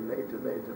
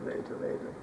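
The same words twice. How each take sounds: First: Softer, letting the words fall away; trailing off. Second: Barely voiced whisper. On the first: Narrator stretching the waiting before Yom Kippur, fading softly. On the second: Narrator stretching the waiting before Yom Kippur, whispered. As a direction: breathe the words out like a secret. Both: A narrator's reading. Building suspense of late hour.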